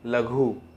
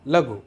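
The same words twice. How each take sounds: First: The final u vowel is long. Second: The final u vowel is short. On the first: The speaker calls it wrong. "हम ऐसा थोड़ी कहते हैं" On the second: The speaker calls it right. "हम कहते हैं"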